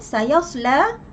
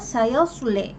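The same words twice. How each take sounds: First: The final vowel leans slightly toward 'i'. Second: The final vowel leans strongly toward 'i'. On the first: "Warsh membaca dengan taklil" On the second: "Hamzah dan juga Al-Kisai membaca dengan imalah"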